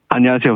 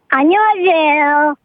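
First: It is said in an adult voice. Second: It is said in a child's voice.

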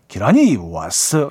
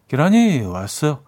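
First: It is said forcefully, with strong energy. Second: It is said weakly, without force.

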